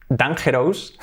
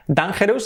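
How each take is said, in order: First: "dangerous" read dan-HEH-rohs; Spanish g and full OUS in "dangerous"; read as spelt. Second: "dangerous" said DAYN-juh-rus; English pronunciation. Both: Shown as a demonstration. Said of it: "Dangerous sería dangerous".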